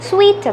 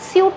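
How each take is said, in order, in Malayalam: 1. ഈ വാക്ക് 'wee' ശബ്ദത്തോടെയാണ് പറയുന്നത്. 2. ഈ വാക്ക് 'oo' സ്വരത്തോടെയാണ് പറയുന്നത്. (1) "ശരിയായ പ്രൊനൗൺസിയേഷൻ സ്വീറ്റ് എന്നാണ്" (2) "സാധാരണയായി ഈ വാക്ക് എല്ലാവരും പ്രൊനൗൺസ് ചെയ്യുന്നത് സ്യൂട്ട് എന്നാണ്"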